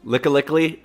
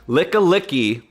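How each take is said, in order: First: The name ends with an extra l sound. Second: The name ends without an extra l sound. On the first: The speaker calls it wrong. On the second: The speaker calls it right.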